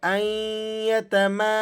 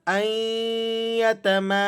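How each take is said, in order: First: The n is silent and merges into ya. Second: The n is silent and merges into ya.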